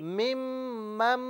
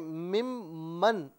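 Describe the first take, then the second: First: The second syllable ends with an 'm' sound. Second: The second syllable ends with an 'n' sound. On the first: The speaker calls it right. "मीम की आवाज होगी, मम पढ़ेंगे" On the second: The speaker calls it wrong. "यहां मन नहीं पढ़ेंगे"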